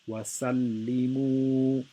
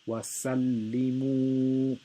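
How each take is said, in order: First: The final 'mu' vowel is held for two beats. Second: The same.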